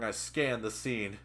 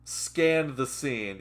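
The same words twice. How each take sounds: First: Said in the usual way. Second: Slow, drawn-out echo of the phrase; mocking echo. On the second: Listener mocking the writer's wording, slow mock-literary echo. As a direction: repeat it slowly to mock the writing.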